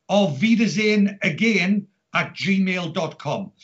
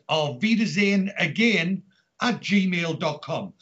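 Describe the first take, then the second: No difference in how they are said.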